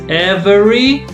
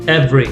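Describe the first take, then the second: First: All three syllables are pronounced in full. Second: The middle syllable is dropped, leaving two. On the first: The speaker calls it wrong. "nobody says every" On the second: The speaker calls it right. "Two syllables"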